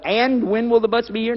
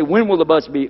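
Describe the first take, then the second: First: "And" tacked on in front, pitched high; higher-pitched mock question led by "And"; odd opening And. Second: Said in the usual way. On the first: Shown as a demonstration. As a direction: begin unnaturally on a raised "And". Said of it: "Nobody talks like that". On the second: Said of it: "Or they'll say".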